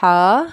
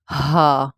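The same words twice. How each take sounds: First: ہا loud, rasped breath from mid-throat; strong breathy throat ہا; throat letter. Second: ہا lower, from deep in the chest; weighty, low ہا; heavy letter. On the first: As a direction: squeeze ہا out of the throat, held. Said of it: "different part سے ادا ہوتے ہیں". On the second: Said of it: "یہ ہا تھوڑا سا بھاری". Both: Shown as a demonstration.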